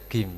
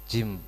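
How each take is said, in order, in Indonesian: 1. Kata ini diawali dengan bunyi g keras. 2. Kata ini diawali dengan bunyi j. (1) "dibaca gim biasanya" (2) "jim bagi orang Mesir"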